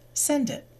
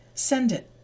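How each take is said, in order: First: The d sound runs smoothly into it. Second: The same.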